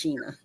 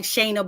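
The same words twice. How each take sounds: First: "Sheena" with a long E, SHEE-nuh; "Sheena", first syllable rhyming with "see"; correct name pronunciation. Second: "Shayna" with a long A, SHAY-nuh; "Shayna", first syllable rhyming with "day"; name read as spelled. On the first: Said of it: "it's pronounced Sheena". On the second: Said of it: "but it's pronounced Sheena". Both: Shown as a demonstration.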